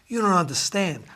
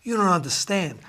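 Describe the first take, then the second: First: It is said in an imitated character voice. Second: It is said in an imitated character voice.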